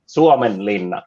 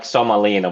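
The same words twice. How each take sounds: First: "Suomenlinna" with "uo" glide and held double n; native Finnish pronunciation. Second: "Somalina" run together with short, simple vowels; mispronounced Finnish name. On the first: Shown as a demonstration. Finn correcting guests on the sea fortress, native pronunciation. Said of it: "it's how I would pronounce it". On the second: Retold or imitated. Finn echoing a guest's attempt at the fortress, mispronounced. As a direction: say "Somalina" the foreigner's way, without Finnish long sounds. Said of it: "to me, it sounds like".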